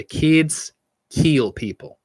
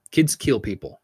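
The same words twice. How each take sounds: First: Put-on "Kids kill people" drawn out very slowly, a bit higher; "Kids" leaned on, the line spoken slowly and deliberately like a spooky motto; slow ominous catchphrase. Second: Said in the usual way. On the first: Shown as a demonstration. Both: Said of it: "as we used to say".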